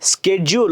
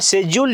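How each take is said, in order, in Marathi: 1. तो sk आवाजाने सुरू होतो, अमेरिकन पद्धतीने. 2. तो sh आवाजाने सुरू होतो, ब्रिटिश पद्धतीने. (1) "स्केड्यूल असं म्हणाल त्यावेळी अमेरिकन इंग्लिशला फॉलो करता" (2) "शेड्यूल ज्यावेळी म्हणाल त्यावेळी ब्रिटिश इंग्लिशला तुम्ही फॉलो करता"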